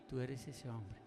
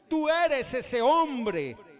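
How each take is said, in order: First: It is said softly and gently. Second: It is said loudly and forcefully.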